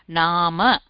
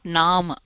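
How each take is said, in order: First: The final vowel is fully pronounced. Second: The final vowel is dropped. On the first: The speaker calls it right. "the complete pronunciation" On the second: The speaker calls it wrong. "not naam"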